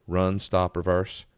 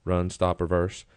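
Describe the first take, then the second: No difference in how they are said.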